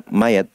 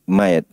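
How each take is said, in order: The two takes are said the same way.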